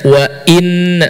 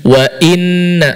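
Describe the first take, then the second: Both takes have the same delivery.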